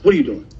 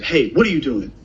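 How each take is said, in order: First: Mildly imitating an old lady's suspicious question; a hint of accusation on what. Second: Said in the usual way. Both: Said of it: "And she said with a tone".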